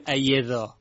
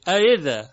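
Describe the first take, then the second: First: اَیِذَا with a clear y replacing the second hamza; wrong y substitution. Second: اَإِذَا louder, second hamza softened toward i without becoming y; correct tashil. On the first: Teacher warns students, hamza turned into y. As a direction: say اَیِذَا as a mistake, a full y in the middle. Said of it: "نگوییم اَیِذَا". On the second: Teacher corrects the mistake, softened hamza. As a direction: glide through اَإِذَا, no full y. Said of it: "به یه تبدیل نکنیم". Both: Shown as a demonstration.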